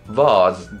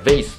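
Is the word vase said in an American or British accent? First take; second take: British; American. First: The word is said in a British accent. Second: The word is said in an American accent. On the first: "イギリス英語だとバーズっていう" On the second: "ベースだとわかります"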